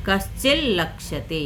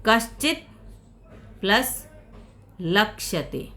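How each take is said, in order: First: कश्चिल लक्ष्यते with a held doubled ल; joined by sandhi. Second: कश्चित and लक्ष्यते said as two separate words with a pause; split apart. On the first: Teacher showing the joined sandhi form. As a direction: run कश्चिल straight into लक्ष्यते. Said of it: "कश्चिल लक्ष्यते बन गया ये". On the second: Teacher showing the words before sandhi, said apart. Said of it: "कश्चित लक्ष्यते में संधि देख ली जाए". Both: Shown as a demonstration.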